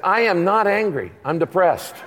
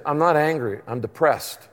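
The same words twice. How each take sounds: First: Firmly spaced "I am not angry", pitched up; mock insistence, leaning on "not"; retold protest, stressing "am not"; insistent denial. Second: Said in the usual way. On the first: Repeated, firmer denial to psychiatrist.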